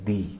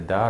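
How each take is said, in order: First: The vowel is a long 'ee' sound. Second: The vowel is a short, reduced 'uh' sound. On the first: It comes before a word starting with a vowel. "rather you will pronounce it as the" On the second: It comes before a word starting with a consonant. "the will no longer remain a the"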